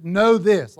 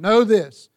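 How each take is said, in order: First: Said in the usual way. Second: Firm command, louder. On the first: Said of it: "or as the E S V puts it". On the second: Shown as a demonstration. Teacher recasting the verse as a firm command. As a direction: bark it out as an order to the class. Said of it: "Like, it's a command".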